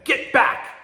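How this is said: It is said as a sharp command.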